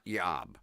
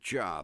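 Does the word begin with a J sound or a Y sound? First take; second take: Y sound; J sound. First: The word begins with a Y sound. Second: The word begins with a J sound. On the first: The speaker calls it wrong. "not yob" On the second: The speaker calls it right. "We pronounce it job"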